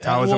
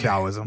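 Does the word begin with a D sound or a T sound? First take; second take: T sound; D sound. First: The word begins with a T sound. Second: The word begins with a D sound. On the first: "is the T pronounced as a D?" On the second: "is the T pronounced as a D?"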